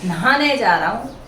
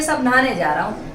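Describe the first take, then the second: First: नहाने with a clear h, na-haane; correct way. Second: नहाने as naane, h dropped; casual wrong way. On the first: Teacher showing the correct form. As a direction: sound the h in नहाने. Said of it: "नहाने शुद्ध होता है". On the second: Teacher showing how people say it wrongly. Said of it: "लेकिन हम क्या बोलते हैं". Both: Shown as a demonstration.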